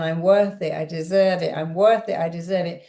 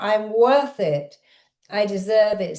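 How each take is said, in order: First: Said in the usual way. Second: Deliberate, empowered declaration; mild demonstrated shout. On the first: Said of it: "I want you to say it again". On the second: Shown as a demonstration. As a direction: call it out firmly, short of shouting. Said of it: "Shout it out".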